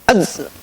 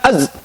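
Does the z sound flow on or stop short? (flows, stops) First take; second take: flows; stops. First: The z sound continues and flows on. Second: The z sound is cut off abruptly. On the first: The speaker calls it right. "sifat daripada huruf za itu adalah sifat rikhwah" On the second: The speaker calls it wrong. "Bukan az"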